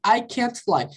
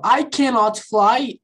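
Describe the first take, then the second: First: Said in the usual way. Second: Slow, careful I cannot fly; slow full form. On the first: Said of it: "Eu só botei o Tzinho". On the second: Shown as a demonstration. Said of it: "eu peguei o not".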